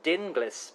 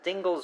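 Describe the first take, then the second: First: The name does not rhyme with shingles. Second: The name rhymes with the word shingles. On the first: "as you've said, uh, rightly so, I believe" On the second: "rhymes with shingles"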